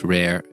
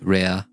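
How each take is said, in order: First: It is said with English sounds. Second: It is said with Japanese sounds. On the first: "in English" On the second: "in Japanese"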